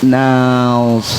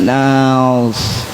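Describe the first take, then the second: No difference in how they are said.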